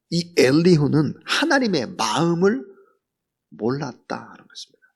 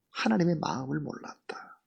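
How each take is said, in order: First: Said in the usual way. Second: 하나님의 마음을 몰랐다 repeated in a soft whisper; whispered echo. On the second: Shown as a demonstration. Preacher echoing his point to the congregation, whispered. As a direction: breathe 몰랐다 out as a hushed whisper.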